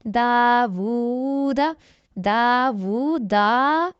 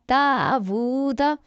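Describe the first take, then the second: First: दावूदा with the last दा stretched long and rising; wrong reading demo. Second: दावूदा with दा and वू held evenly long and the last दा short; correct tajweed reading. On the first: Teacher shows students the wrong way to read दावूदा. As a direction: show the mistake by drawing out the final दा of दावूदा. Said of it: "ऐसे नहीं पढ़ना।". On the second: Teacher models the right reading of दावूदा for students. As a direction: stretch the first दा and वू equally, then cut the final दा quick. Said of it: "इसको हम दोनों को खींचेंगे बराबर।". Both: Shown as a demonstration.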